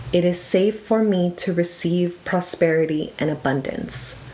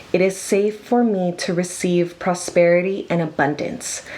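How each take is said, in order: Both takes have the same delivery.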